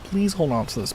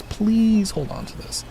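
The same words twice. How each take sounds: First: Said in the usual way. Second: Slower, louder pleading repeat. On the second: Retold or imitated. Streamer begging mom to hold the Lego tree. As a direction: beg her again, slower. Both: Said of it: "I'm like".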